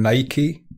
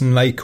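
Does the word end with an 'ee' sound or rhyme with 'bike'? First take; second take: ee ending; rhymes bike. First: It is said ending in an 'ee' sound. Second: It is said as one syllable, like 'bike'.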